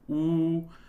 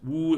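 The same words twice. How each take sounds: First: The vowel is formed at the back of the throat. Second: The vowel is formed further forward in the mouth. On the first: The speaker calls it wrong. "formed not at the back of the throat as as uh, in some uh, later some pronunciation is woo" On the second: The speaker calls it right. "but woo is like W U"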